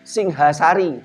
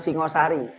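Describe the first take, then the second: First: The second vowel is said as an 'a' sound. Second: The second vowel is said as an 'o' sound. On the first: This is the old Javanese reading without the O vowel. The speaker calls it right. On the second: This is the later reading with the O vowel. The speaker calls it wrong. "bukan Singosari"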